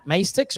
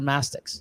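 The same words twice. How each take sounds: First: "mastix" with MAY as in "maystix"; first syllable of "mastix" rhymes with "face"; long A pronunciation. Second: "mastix" with MASS as first syllable; first syllable of "mastix" rhymes with "gas"; short A pronunciation. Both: Shown as a demonstration. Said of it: "how you say it".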